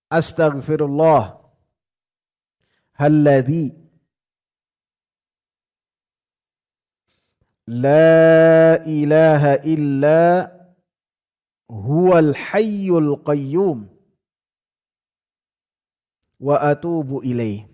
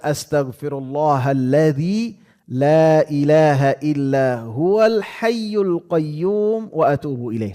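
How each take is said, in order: First: The phrase is said slowly and deliberately. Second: The phrase is said at a normal pace.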